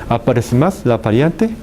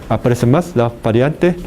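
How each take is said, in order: Both takes have the same delivery.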